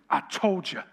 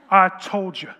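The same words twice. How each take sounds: First: A knowing, self-satisfied I told you; smug told you. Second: Loud, gloating I told you; triumphant shout. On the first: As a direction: say it like you were right all along. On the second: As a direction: crow it out, you were right. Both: Retold or imitated. Boyfriend vindicated after the reveal.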